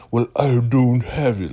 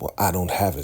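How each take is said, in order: First: High, loud sing-song mimicry; mocking. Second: Said in the usual way. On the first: Elder Mother making fun of Ruth in the kitchen, loudly mocking. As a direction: make fun of her with an exaggerated put-on voice. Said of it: "She's mocking Ruth, right? Really making fun of her". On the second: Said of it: "She's mocking Ruth".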